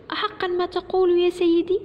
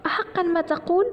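First: High-pitched amazed question, rising at the end; astonished boy. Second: High-pitched hopeful question, rising at the end; delighted mother. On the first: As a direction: ask it in wide-eyed disbelief. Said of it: "سأل كريم في دهشة". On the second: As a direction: ask in happy disbelief. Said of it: "قالت الأم فرحة". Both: A narrator's reading.

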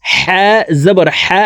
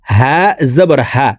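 First: হা breathed from the middle of the throat. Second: হা from where the throat begins; deep-throat H. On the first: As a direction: tighten হা in mid-throat. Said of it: "হা হরফ হলকের মধ্যখান থেকে". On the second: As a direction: let হা start at the bottom of the throat. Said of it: "হলকের শুরু থেকে পড়তে হবে". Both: Shown as a demonstration.

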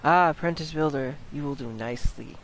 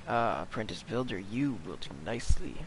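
First: Lightly voiced mysterious speaker; game character voice. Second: Low, soft, ominous approval; quiet otherworldly figure, pitched well down; mysterious deep voice. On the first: First take of game character's line. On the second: Acted. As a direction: sink down into a hushed deep voice. Retake in a deeper, hushed voice.

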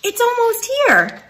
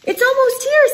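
First: High bird voice, falling tune. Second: High bird voice with rising tune; chickadee voice. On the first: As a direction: settle it down like a bird. Second bird answers. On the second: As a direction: chirp it upward like a chickadee. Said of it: "says a chickadee". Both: Acted.

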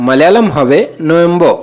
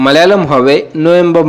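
No difference in how they are said.

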